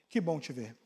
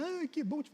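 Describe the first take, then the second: First: It is said in a firm, steady voice. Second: It is said in a sugary, sappy voice.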